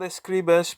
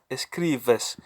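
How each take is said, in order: First: The b is a hard, full b sound. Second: The b is soft, close to a v. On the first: The speaker calls it wrong. "it's not" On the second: The speaker calls it right. "the B sounds like uh, a V"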